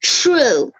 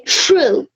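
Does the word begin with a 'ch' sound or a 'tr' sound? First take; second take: ch; ch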